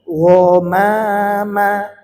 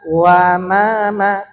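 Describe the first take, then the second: First: The vowel after w is thick, like o. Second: The vowel after w is thin, like a. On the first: The speaker calls it right. "tapi wo mama, wo dibaca tebal" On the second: The speaker calls it wrong. "jangan dibaca wa mama"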